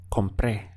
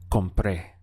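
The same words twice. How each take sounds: First: Compré with the stress on the last é; stress on final E. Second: Compré repeated, weight on the final é; final E stressed. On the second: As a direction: model comPRÉ slowly. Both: Shown as a demonstration. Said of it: "replace it with an E with an accent".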